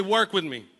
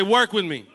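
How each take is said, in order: First: Said in the usual way. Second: Forceful, loud congregational prompt; like you mean it. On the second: Shown as a demonstration. Preacher urging the crowd to repeat with conviction, forceful call. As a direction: say it louder, with real conviction. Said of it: "Say it like you mean it".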